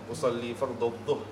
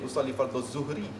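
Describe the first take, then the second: First: The last word starts with a heavy dh sound. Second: The last word starts with a plain z sound. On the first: The speaker calls it right. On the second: The speaker calls it wrong. "bukan jadi ... itu zain"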